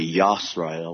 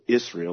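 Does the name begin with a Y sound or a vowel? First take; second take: Y sound; vowel. First: The name begins with a Y sound. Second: The name begins with a vowel sound. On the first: The speaker calls it right. "It's really Yisrael with the Y" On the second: The speaker calls it wrong. "the translators put Israel, which was a fake counterfeit name"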